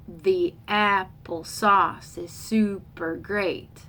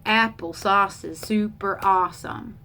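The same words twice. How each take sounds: First: Slow "the AP-ple SAUCE is SU-per GREAT"; iambic beat. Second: "AP-ple SAUCE is SU-per AWE-some"; trochaic beat. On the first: Teacher scans four iambs, slow alternating stress on "the apple sauce is super great". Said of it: "four iambs". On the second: Teacher scans four trochees, alternating stress from the start of "apple sauce is super awesome". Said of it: "those are four trochees". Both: Shown as a demonstration.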